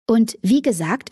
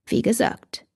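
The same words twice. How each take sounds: First: Said in the usual way. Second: Whispered. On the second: A narrator's reading. Damon whispers his point to Katie again. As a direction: breathe the words like a secret.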